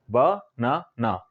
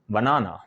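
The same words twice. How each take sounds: First: "ब-ना-ना" in three slow separate beats; syllable by syllable. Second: Said in the usual way. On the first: Shown as a demonstration. Teacher showing three syllables to learners, "ब-ना-ना" said slowly in parts. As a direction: draw out "ब-ना-ना", pausing after each syllable. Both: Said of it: "आप तीन बार में बोलते हैं".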